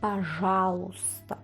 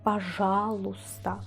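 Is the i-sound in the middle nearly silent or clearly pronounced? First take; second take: nearly silent; nearly silent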